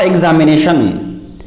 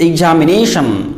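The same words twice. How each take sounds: First: Examination with a "z" sound, ek-za-mi-NAY-shun; wrong pronunciation. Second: Examination with a "j" sound, ig-ja-mi-NAY-shun; accurate pronunciation. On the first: Teacher showing what to avoid, examination as ek-za-mi-NAY-shun. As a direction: say examination starting "ek-z". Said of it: "Not examination". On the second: Teacher giving the accurate form, examination as ig-ja-mi-NAY-shun. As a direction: say examination starting "ig-j". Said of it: "This is the accurate pronunciation". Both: Shown as a demonstration.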